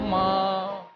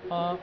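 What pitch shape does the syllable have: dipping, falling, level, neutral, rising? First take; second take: rising; neutral. First: The pitch rises from low to high. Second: The syllable is short and light, unstressed. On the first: It means numb. "second tone, that is going up" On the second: It marks a question. "neutral tone, sound is light"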